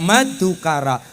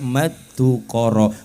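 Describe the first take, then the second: First: It is said in the Banyumas-style ngapak accent. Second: It is said in the eastern Javanese accent. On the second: "basa wetane"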